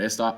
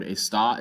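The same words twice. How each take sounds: First: "esta" stressed on its first syllable, ES-ta. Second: "esta" stressed on its last syllable, es-TA; stress on final syllable. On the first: Teacher contrasts two look-alike Spanish words, "esta" stressed ES-ta. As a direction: put the weight on the "es" of "esta". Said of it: "so you don't confuse it with". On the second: Teacher shows Spanish learners why the word takes an accent, "esta" stressed es-TA. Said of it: "put an accent on the word". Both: Shown as a demonstration.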